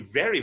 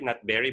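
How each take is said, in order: First: Each word begins with a V sound. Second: Each word begins with a B sound. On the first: The speaker calls it right. "It should be very, very" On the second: The speaker calls it wrong. "Very, very is a sickness"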